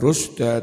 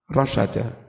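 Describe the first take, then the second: First: The first vowel is u, with two syllables. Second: The first vowels are a, with three syllables. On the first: This is the majority reading. "bidhammir ra dengan mendhammah ra" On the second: This is the reading of As-Sulami. "bi fathir ra wasyin"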